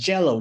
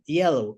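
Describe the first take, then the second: First: The word has a strong Spanish accent. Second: The word has a native English accent. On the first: The speaker calls it wrong. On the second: The speaker calls it right.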